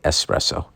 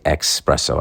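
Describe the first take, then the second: First: The word starts with an 'ess' sound. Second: The word starts with an 'ex' sound. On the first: The speaker calls it right. "I say that right. I say espresso" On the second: The speaker calls it wrong. "I don't say espresso"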